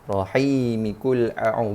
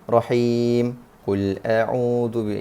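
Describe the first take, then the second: First: The final m is followed by an i vowel. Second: The final m has no vowel after it. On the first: The word is joined to the next verse. The speaker calls it right. "Dia kena bunyi rahimi kul a'u" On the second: The reader has stopped after the word. The speaker calls it wrong. "Bukan bukannya rahim kul a'udzu. Itu kalau berhenti"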